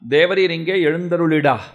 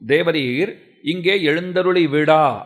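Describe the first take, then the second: First: The ending is run together quickly. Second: The ending is said fully and separately.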